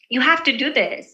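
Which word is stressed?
have. The stress falls on the word have. The task is mandatory. "it really depends on how you're saying it with slight force"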